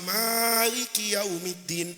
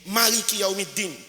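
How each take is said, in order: First: The first vowel of Maliki is drawn out long. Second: The first vowel of Maliki is kept short. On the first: "Boleh dibaca Maliki Yaumiddin panjang itu, Maliki Yaumiddin pakai mat tabi'i" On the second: "Boleh dibaca pendek"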